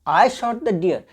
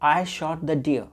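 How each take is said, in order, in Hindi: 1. यह एक संदेहपूर्ण प्रश्न की तरह बोला गया है। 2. यह शांति से और कोमलता से बोला गया है। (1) "यहां पर वो खुद से सवाल कर रहा है" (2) "बड़े आराम से सॉफ्टली"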